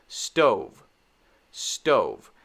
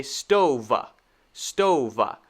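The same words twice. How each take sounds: First: "stove" as one syllable ending on V; correct final V. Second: "stove" as two syllables, stove-vuh; added vuh ending. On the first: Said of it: "It should just be". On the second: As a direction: tack an extra uh after the V of "stove". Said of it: "This is not correct". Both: Shown as a demonstration.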